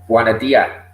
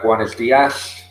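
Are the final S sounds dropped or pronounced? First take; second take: dropped; pronounced. First: The final S sounds are dropped. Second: The final S sounds are pronounced.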